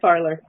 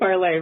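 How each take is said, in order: First: The name is said their way, ending 'er'. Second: The name is said the Canadian way, ending 'ay'.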